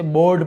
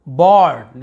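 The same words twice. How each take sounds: First: बोर्ड with a closed 'o', as 'bord'; बोर्ड said as BORD; everyday o sound. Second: बोर्ड with an open 'aw', as 'bawrd'; बोर्ड said as BAWRD; open aw sound. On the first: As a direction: round the vowel of बोर्ड to a long o. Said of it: "हम इसे बोर्ड पढ़ते हैं". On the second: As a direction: open the vowel of बोर्ड, louder. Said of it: "लिखा हुआ". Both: Shown as a demonstration.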